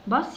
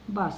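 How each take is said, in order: First: The vowel is a short uh sound. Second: The same.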